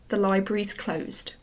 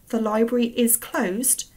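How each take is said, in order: First: The word 'is' is contracted onto 'library'. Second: The word 'is' is said in full. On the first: The speaker calls it wrong. "and not" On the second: The speaker calls it right. "make sure you say"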